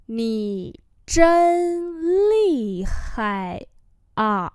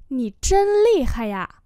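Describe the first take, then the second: First: Nǐ zhen lì hai à stretched out; slow demonstration. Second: Said in the usual way. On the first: Shown as a demonstration. Teacher repeats a phrase for learners, very slowly. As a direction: separate each syllable of Nǐ zhen lì hai à.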